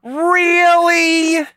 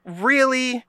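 First: Very high, loud, drawn-out mock disbelief; exaggerated sarcasm. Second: High-pitched mock disbelief; sarcastic. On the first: Podcaster escalating at co-host's sarcasm complaint, heavily sarcastic. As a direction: stretch it out in a squeal of fake surprise. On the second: Podcaster answering co-host's sarcasm complaint, sarcastically. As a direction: feign surprise with a high lilt. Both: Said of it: "being actually sarcastic".

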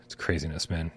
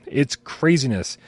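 First: Sighed out, almost a whisper; weary aside. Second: IT'S CRAZINESS drawn out slowly, with weight; emphatic repeat. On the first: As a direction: let it out low on a sigh. Sighing over chaos, then repeated. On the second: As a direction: slowly lean on every part of "It's craziness". Emphatic repeat of same words. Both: Real, not acted.

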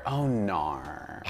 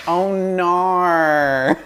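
First: Low, soft Aussie "oh nar"; understated mock Australian "oh nar"; Australian accent. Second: High, drawn-out Aussie "oh nar"; Australian accent. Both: Shown as a demonstration. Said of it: "It's my favorite word".

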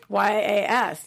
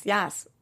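First: Spelling it out. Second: "yas" with an open a like cat, not "yes"; saying yas. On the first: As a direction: spell out Y A S letter by letter. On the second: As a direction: say "yas" with a flat a. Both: Shown as a demonstration. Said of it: "Spell it for me".

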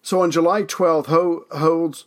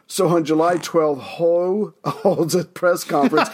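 First: Said in the usual way. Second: Second try, laughing through it; slow down and get it right, chuckling; retry with a laugh. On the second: Real, not acted. Host retrying a flubbed line, laughing. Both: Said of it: "let me try that again".

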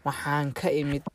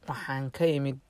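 The two takes are said the same way.

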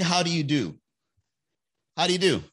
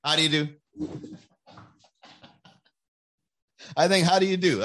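First: A prim, breezy how-do-you-do; mock polite greeting. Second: A prim, breezy how-do-you-do repeated; mock polite greeting. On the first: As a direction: greet the ex politely and keep walking. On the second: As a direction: tip the hat and walk past. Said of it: "I think that's a good one". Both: Shown as a demonstration.

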